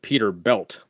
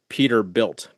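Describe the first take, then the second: First: The last syllable has the vowel of 'bell'. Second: The last syllable has the vowel of 'bill'. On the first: "Tanner called it Peter Belt, like B E L T" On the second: "I've always pronounced it Peterbilt, like B I L T"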